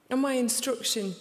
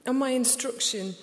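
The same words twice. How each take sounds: The two takes are said the same way.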